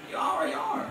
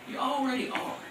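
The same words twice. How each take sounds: First: Breathy whisper of the point; whispered aside. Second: Said in the usual way. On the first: Shown as a demonstration. Preacher whispering to his congregation, hushed. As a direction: whisper it like a secret truth.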